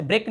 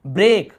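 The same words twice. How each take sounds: First: ब्रेक with a short, quick "e"; too-short vowel. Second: ब्रेक slow, with a long "ay"; drawn-out vowel. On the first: Teacher showing students what to avoid, short ब्रेक. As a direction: say ब्रेक without stretching the vowel. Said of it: "हम ऐसे ब्रेक नहीं बोले". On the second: Teacher modelling the long sound for students, drawn-out ब्रेक. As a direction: stretch the middle of ब्रेक. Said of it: "थोड़ा लंबा खींचना". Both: Shown as a demonstration.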